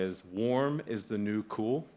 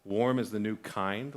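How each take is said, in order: First: Warm is the new cool, leaning on warm; slow, lean on the word warm; stress on warm. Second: Warm is the new kind, leaning on Warm; slow, lean on the word Warm; stress on Warm. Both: Shown as a demonstration. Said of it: "I heard it recently said this way".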